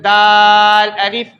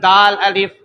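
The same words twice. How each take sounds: First: The letter sounds are drawn out long. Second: The letter sounds are said short, not drawn out. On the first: "यहाँ भी खींच कर पढ़े" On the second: "बगैर खींच कर पढ़ाते हैं"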